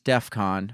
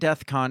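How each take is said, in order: First: The first syllable sounds like def, ending in f. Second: The first syllable sounds like the word death. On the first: The speaker calls it right. "it's DEFCON" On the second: The speaker calls it wrong. "it's not DEFCON"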